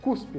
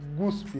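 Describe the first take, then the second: First: The word begins with a voiceless K sound. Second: The word begins with a voiced G sound. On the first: The speaker calls it right. "Com C U mesmo" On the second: The speaker calls it wrong. "Não é gu"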